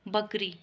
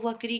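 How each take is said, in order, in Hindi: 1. यह शब्द b ध्वनि से शुरू होता है। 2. यह शब्द v ध्वनि से शुरू होता है। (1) "शुद्ध रूप में देखो बकरी" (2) "अगर वकरी बोलेंगे तो वकरी क्या गलत हो जाएगा"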